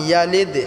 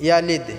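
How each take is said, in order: Both takes have the same delivery.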